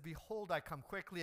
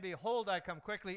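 First: It is said at normal preaching volume. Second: It is yelled at full volume.

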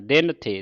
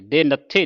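First: The n sound ends the first word. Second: The n sound starts the second word. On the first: The speaker calls it right. "ਥੱਥੇ ਨਾਲ ਵੱਖਰਾ ਕਹਿਣਾ" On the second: The speaker calls it wrong. "ਨਹੀਂ ਪੜਨਾ"

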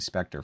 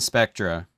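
First: The word ends with an 'er' sound. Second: The word ends with an 'a' sound. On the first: The speaker calls it wrong. "I always say Spectre for some reason" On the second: The speaker calls it right. "Pronounced it right for once"

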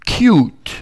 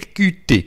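First: The name is said like an English word. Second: The name is said with French letter sounds. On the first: It is the fashionable pronunciation. "si je vais être à la mode, ben je dirais Qt" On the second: It is an acceptable pronunciation for a French speaker. "je parle le français, donc je peux dire Qt"

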